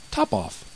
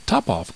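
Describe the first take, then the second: First: Quite cool, understated answer. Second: Mild cry of surprise from the mouse; astonished cry. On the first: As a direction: say it coolly, without any fuss. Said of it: "quite coolly". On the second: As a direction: echo the name in mild astonishment. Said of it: "cried the mouse". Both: A narrator's reading.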